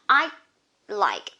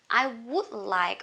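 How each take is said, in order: First: A short silent stop replaces 'would'. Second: The word 'would' is said in full.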